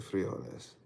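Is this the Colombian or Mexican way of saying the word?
Colombian. It is said the Colombian way. "Colombians say frijoles"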